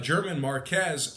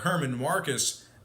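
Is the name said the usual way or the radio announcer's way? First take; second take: usual; announcer's way. First: The name is said in the speaker's usual way. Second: The name is said the way its radio announcer says it.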